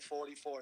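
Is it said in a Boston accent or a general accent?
general. It is said in a general American accent.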